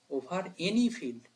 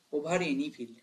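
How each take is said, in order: First: Over any field, drawn out slowly word by word; slow, weighty teacher repeat; slow emphasis. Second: Said in the usual way. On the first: Shown as a demonstration. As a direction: stretch out over any field to drive it home.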